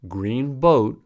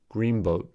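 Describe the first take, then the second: First: 'Green' ends with an n sound. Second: 'Green' ends with an m sound. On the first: "The alveolar consonant n" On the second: "becomes bilabial m to match b"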